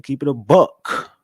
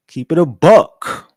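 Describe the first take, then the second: First: Said in the usual way. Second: "Keep it a buck" called out louder, slow and drawn out; belted catchphrase. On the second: Shown as a demonstration. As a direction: stretch "buck" like a hype line.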